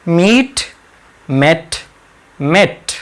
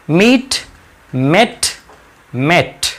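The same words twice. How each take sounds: The two takes are said the same way.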